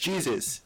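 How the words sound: The name is said with an American English pronunciation. This is how others say the name. "if I went to to an American, they would be like"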